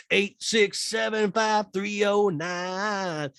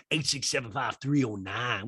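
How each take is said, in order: First: Higher, slow sung hook. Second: Said in the usual way. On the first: Shown as a demonstration. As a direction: sing the number like an eighties pop chorus. Is a song from the eighties.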